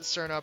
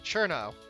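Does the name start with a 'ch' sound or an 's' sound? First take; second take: s; ch. First: The name begins with an 's' sound. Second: The name begins with a 'ch' sound. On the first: The speaker calls it wrong. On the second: The speaker calls it right.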